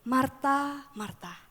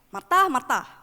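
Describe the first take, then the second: First: The name is called in a gentle tone. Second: The name is called in an angry tone. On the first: The person being called is addressed with deep love. The speaker calls it right. "dia memanggil dengan lembut" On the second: The person being called is being scolded. The speaker calls it wrong. "tidak memanggil Marta dengan nada marah ya, bukan kayak"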